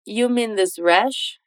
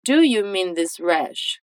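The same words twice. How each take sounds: First: Slow question rising on "You"; slow casual form. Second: Slow, careful full question; slow correct form. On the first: Teacher models the casual version between friends slowly. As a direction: ask "You mean this rash?" slowly, rising. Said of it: "é tranquilo só dizer". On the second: Teacher models the grammatical version slowly. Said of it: "O mais correto, gramaticalmente falando". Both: Shown as a demonstration.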